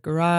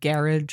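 First: It is said with an American pronunciation. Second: It is said with a British pronunciation.

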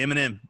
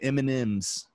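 First: The word ends without an added S sound. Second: The word ends with an added S sound. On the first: "I say M&M" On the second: "And like put the S on it"

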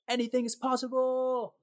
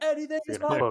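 First: It is said calmly, with little energy. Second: It is said loudly, with great passion. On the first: The speaker calls it wrong. "you gotta say it with a bit more passion than that" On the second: The speaker calls it right. "that was good"

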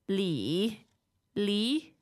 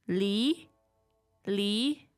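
The two takes are said the same way.

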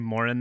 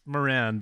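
First: The name is said with an Irish pronunciation. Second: The name is said with an American pronunciation. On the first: "I was just in Ireland. They say Moran there" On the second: "It's Moran"

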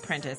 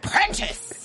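First: The name is said flatly, with little energy. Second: The name is said loudly, with lots of energy. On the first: The speaker calls it wrong. "You can't just be like Prentice" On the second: The speaker calls it right. "You gotta say that with some power"

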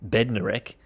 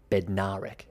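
First: The D sound is clearly pronounced. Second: The D is dropped and 'na' is stressed. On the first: The speaker calls it wrong. "when I first heard his name" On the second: The speaker calls it right. "you don't say the D in Kenny Bednarek, and you really hit the na"

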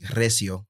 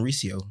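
First: The name is said with Spanish sounds, rolled R. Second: The name is said with English sounds, plain R. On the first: "If you're pronouncing it in Spanish, it would technically be Recio" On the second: "like English pronunciation, Recio"

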